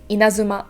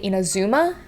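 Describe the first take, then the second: First: The emphasis falls on an early syllable. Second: The emphasis falls on the third syllable. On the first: The speaker calls it right. "the intonation will go into the first or second syllable" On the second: The speaker calls it wrong. "with the uh, intonation at the third syllable"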